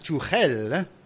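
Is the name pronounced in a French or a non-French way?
non-French. The name is said without a French accent. "which is apparently the right pronunciation"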